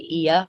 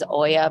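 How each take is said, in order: First: The name begins with an 'ee' sound. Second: The name begins with an 'oh' sound. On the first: This is how the locals say it. "I think they say Ia" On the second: This is how most visitors say it. "I think people pronounce it as Oya"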